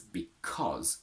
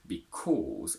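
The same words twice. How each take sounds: First: The second vowel is a quick, short 'o'. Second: The second vowel is a long 'or' sound. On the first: The speaker calls it right. "with a quick and short oh" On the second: The speaker calls it wrong. "it's not pronounced as because, ... which has a long or"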